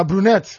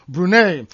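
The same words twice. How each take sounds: First: "Brunette" the English way, final t sounded; "Brunette" ending like net; English pronunciation. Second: "Brunei" the French way, silent final t; "Brunei" ending on an ay sound, no t; French pronunciation. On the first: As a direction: say "Brunette" English-style, closing on a t. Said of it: "or the English way". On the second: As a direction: say "Brunei" French-style, ending in an open vowel. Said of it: "pronounce it like the French way". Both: Shown as a demonstration.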